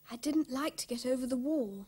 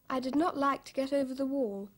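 First: 'Did not' is squeezed into one word, didn't. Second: 'Did not' is said as two separate words. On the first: "that's what she said" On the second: "There's another way to write it"

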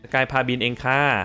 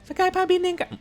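First: It is said in a normal speaking voice. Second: It is said in a small, high voice. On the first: The speaker calls it wrong. "ไม่ได้ดิ" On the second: The speaker calls it right. "ต้องเสียงเล็กดิ"

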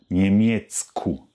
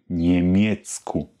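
Both takes have the same delivery.

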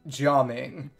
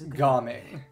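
First: The name starts with a soft 'j' sound. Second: The name starts with a hard 'g' sound. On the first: "the Mandarin reading of the characters in his name is more like" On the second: "the Cantonese pronunciation is"

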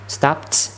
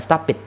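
First: The ending is a short plain t sound. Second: The ending is an extra syllable, like "it". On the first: The speaker calls it right. "Stopped, chữ T" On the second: The speaker calls it wrong. "chứ không phải là stop it nha"

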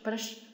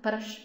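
First: The r sound is light and soft. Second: The r sound is light and soft.

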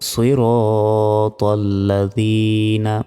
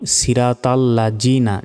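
First: The consonant is a soft dh, tongue between teeth. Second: The consonant is a buzzing z sound. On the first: The speaker calls it right. "জিহ্বা বের করে দালক্ষটা উচ্চারণ করতে হবে" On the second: The speaker calls it wrong. "অনেকে বলি সিরাতাল লাযীনা, জিনা নয়"

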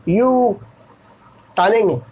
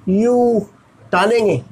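No difference in how they are said.

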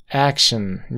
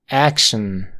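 Both takes have the same delivery.

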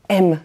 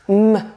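First: The letter is said as its alphabet name. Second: The letter is said as its bare sound. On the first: The speaker calls it wrong. "on ne dit pas M" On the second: The speaker calls it right. "mais c'est le son de la lettre"

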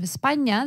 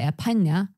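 First: The s before p is a clear hiss. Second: The s before p becomes a breathy h. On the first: This is the usual pronunciation. "instead of España" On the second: This is how Argentinians say it. "instead of, let's say, S, very often they have just the aspiration"

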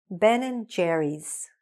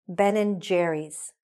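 The two takes are said the same way.

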